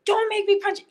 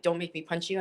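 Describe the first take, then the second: First: High, loud fired-back threat; mock yell. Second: Said in the usual way. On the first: Answering the man who threatened her, a high loud shout. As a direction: throw his words back at him, much higher and louder. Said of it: "And I was like". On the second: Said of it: "he was like".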